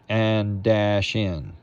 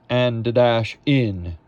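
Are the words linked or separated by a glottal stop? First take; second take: linked; separated. First: The words run together without a glottal stop. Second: A glottal stop separates the words. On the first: The speaker calls it wrong. "We don't want and dash in. Don't want that" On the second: The speaker calls it right. "Glottal stop"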